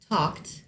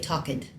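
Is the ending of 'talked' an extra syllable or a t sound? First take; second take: t sound; extra syllable. First: The ending is a plain t sound. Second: The ending is a separate -ed syllable. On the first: The speaker calls it right. "instead, for example, of saying" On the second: The speaker calls it wrong. "they'll mispronounce that ed at the end"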